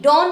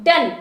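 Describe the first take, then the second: First: डॉन with an open rounded "o"; "on" sound in डॉन; wrong round vowel. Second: डन with a short "uh", rhyming with "un"; short "un" sound in डन; corrected short vowel. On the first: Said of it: "डॉन नहीं". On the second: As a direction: say डन as "dun". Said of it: "अन की आवाज दो". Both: Shown as a demonstration.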